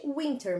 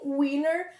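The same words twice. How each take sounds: First: "winter" with the T sounded. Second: "winner", the T of winter left silent. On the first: Teacher contrasting forms for pupils, T clearly pronounced. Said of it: "ao invés de winter". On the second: Teacher contrasting forms for pupils, T dropped as in winner. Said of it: "é bastante comum eles falarem winner". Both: Shown as a demonstration.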